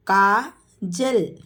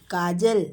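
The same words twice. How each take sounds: First: Kajal drawn out slowly; slow teacher model of Kajal. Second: Said in the usual way. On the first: Shown as a demonstration. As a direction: stretch Kajal syllable by syllable. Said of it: "teacher models name slowly". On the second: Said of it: "quick plain repeat".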